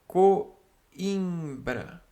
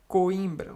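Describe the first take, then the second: First: "Coimbra" said slowly as co-im-bra, the i as its own syllable; slow teaching take of "Coimbra", vowels kept apart; syllables pulled apart. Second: Said in the usual way. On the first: Shown as a demonstration. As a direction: stretch "Coimbra" so the hiatus between o and i is clear. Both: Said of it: "Não tá formando ditongo".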